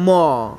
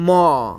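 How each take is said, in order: Both takes have the same delivery.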